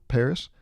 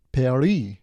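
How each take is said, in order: First: Said in the usual way. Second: Paris said the French way, "pah-REE"; French pronunciation. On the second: Shown as a demonstration. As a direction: stress the end of Paris, silent s, French style. French and English names contrasted.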